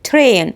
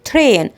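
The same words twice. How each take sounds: No difference in how they are said.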